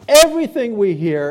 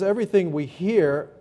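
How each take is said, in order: First: It is said forcefully, with strong emphasis. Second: It is said plainly, without strong emphasis.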